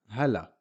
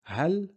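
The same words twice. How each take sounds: First: "hala" in two syllables, falling, short a after L; fatha on the lam. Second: "Hal" pitched high, one syllable stopping on L; half-sound L. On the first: Teacher giving the fatha version, vowel after L. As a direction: let the L of "hala" open into a. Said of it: "with a fatha on the lam". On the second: Teacher contrasting sukoon with fatha, high stopped syllable. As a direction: lift "Hal" and end it on the L, no vowel. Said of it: "it's half a sound". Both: Shown as a demonstration.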